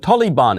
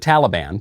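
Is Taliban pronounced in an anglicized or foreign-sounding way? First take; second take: foreign-sounding; anglicized. First: The word has a foreign-sounding pronunciation. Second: The word has a plain English pronunciation. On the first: The speaker wants to sound cultured. The speaker calls it wrong. "the Democrats refer to the Taliban ... because they want to sound cultured or cosmopolitan" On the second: The speaker simply speaks English. The speaker calls it right. "The conservatives refer to the Taliban because we speak English"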